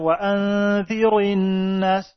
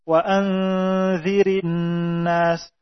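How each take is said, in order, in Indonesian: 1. Huruf r diucapkan tebal dan berat. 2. Huruf r diucapkan tipis dan ringan. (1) "bukan wa anzirin nas" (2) "secara mutlak dia dibaca tipis"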